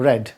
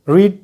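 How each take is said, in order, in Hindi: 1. स्वर छोटा है, 'bed' से तुक मिलता है। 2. स्वर लंबा है, 'need' से तुक मिलता है। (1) "स्पेलिंग सेम रहेगा, उच्चारण बदल जाएगा" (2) "रीड द न्यूज़पेपर"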